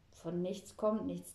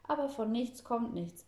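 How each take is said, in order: First: Slow, pensive repeat of a saying; thoughtful. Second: Said in the usual way. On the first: A narrator's reading. Girl pondering grandpa's proverb alone, thoughtful and slow. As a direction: mull it over slowly. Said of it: "bleibt nachdenklich zurück".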